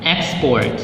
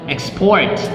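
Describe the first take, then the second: First: The stress is on the first syllable. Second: The stress is on the second syllable. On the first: It is used as a noun. "the nouns" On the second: It is used as a verb. "second syllable stress used as a verb"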